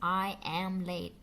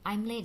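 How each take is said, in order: First: The word am is said in full. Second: The word am is reduced and joined on. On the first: The speaker calls it wrong. "Jarang sekali I am late. No. Malah jadinya unnatural" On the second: The speaker calls it right. "Setelah I langsung am"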